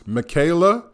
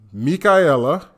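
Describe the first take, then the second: First: The name is pronounced with English sounds. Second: The name is pronounced with Spanish sounds. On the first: "In like American English world, it reads" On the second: "In Latin America, in Spanish, it's"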